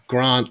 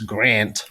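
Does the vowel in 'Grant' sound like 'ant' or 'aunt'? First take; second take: aunt; ant. First: The vowel is long and broad, as in 'aunt'. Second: The vowel is short and flat, as in 'ant'. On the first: The speaker calls it wrong. "it's not Grant like aunt" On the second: The speaker calls it right. "it's Grant like ant"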